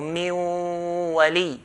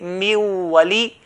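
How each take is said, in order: First: The w is nasalized with a held nasal sound. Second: The w is plain, without any nasal sound. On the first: The speaker calls it right. "So miu wali" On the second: The speaker calls it wrong. "then I'm not pronouncing the waw with the ghunna"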